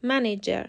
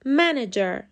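First: منیجر with the stress on the last syllable, man-a-GER; منیجر, weight shifted onto the final syllable. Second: منیجر with the stress on the first syllable, MAN-ager; منیجر, strong start and a falling finish. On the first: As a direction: demo the wrong stress, pushing the end of منیجر. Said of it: "استرس روی سیلاب آخر میفته". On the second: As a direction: lean on the first syllable of منیجر, then drop. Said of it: "استرس این کلمه روی سیلاب اوله". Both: Shown as a demonstration.

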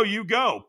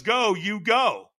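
First: Said in the usual way. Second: Sharp high "Go"; coach's command. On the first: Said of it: "When he says". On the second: Retold or imitated. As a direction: bark the word Go like a trainer. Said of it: "when he says".

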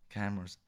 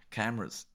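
The two takes are said the same way.

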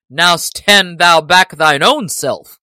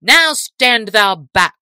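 First: Loud, slow defiant retort; Little John retort. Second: Slow, loud soldier's order; crying out. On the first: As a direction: throw the order right back. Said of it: "quoth Little John". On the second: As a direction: shout to push him back. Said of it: "cried one of the men-at-arms". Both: A narrator's reading.

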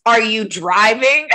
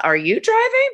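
First: Slow, pointed, slightly louder question. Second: Squeaky high mock-innocent question; sassy comeback. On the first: Retold or imitated. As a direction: ask it like a loaded accusation. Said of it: "she looks at you and says". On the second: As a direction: fire it back with sweet sarcasm. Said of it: "you should have looked at her and said".

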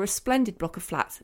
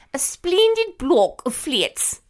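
First: Said in the usual way. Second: Exaggerated upper-class English royal accent, vowels pinched into "spleendid" and "fleets"; Princess Margaret. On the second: Quoting a princess opening flats, mock-royal English accent. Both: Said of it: "but she didn't say it like that".

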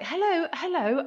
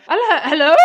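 First: Said in the usual way. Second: Loud, high phone greeting; old lady on phone. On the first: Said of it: "I was like". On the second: Retold or imitated. A caller on her nan's landline greets loudly and high. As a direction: call hello down the line. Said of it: "lovely old lady who went".

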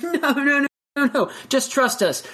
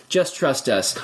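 First: High, insistent coaxing; lightly voiced birds urging a scared friend; pushy birds. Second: Lower, flatter second coax; low repeat. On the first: Birds urge Chicken to jump, high coaxing. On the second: Retold or imitated. Birds repeat their urging to Chicken, lower. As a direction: drop the pitch and say it again. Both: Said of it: "And they're like".

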